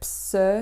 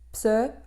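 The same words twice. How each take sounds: First: The fricative consonant is given more force. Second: The plosive consonant is held with more force. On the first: The speaker calls it wrong. "au lieu de pse" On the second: The speaker calls it right. "pse au lieu de"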